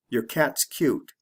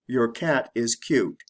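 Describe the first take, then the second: First: Your cat's cute with your reduced to yer; quick reduced your; said the fast natural way. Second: Your cat is cute with every word said fully; slow careful reading. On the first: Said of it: "then I'll say it the fast way". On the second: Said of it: "I'll say it the slow way". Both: Shown as a demonstration.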